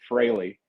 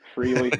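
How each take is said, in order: First: The first syllable sounds like 'fray'. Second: The first syllable sounds like 'free'. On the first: The speaker calls it right. "it was always Fraley" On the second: The speaker calls it wrong. "there is that tendency to say freely"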